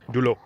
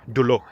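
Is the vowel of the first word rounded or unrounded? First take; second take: rounded; rounded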